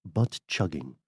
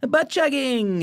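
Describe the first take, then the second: First: Put-on lower, softer posh British accent. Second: High gleeful blurt; finally allowed to yell it out; high, loud, delighted outburst; excited shout. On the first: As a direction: say it like a proper English gentleman, posh British. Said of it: "in a posh British voice". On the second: Real, not acted. Finally gets to say it.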